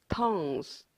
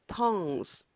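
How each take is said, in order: No difference in how they are said.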